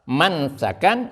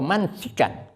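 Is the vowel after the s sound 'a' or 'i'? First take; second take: a; i. First: The vowel after the s is a. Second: The vowel after the s is i. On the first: "mansakan sin yang berfathah" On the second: "sin yang berkasrah"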